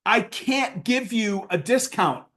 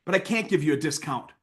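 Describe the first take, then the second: First: Slow, deliberate refusal; firm refusal. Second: Softer, brotherly no; gentle refusal. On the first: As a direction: spell it out slowly to a pushy client. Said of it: "And I said". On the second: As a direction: let him down kindly, like a friend. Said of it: "I said". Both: Retold or imitated.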